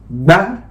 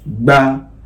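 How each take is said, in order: First: The syllable is said on a high tone. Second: The syllable is said on a mid tone. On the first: "Now let's go on with the high tone" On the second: "Now let's go on with the middle tone"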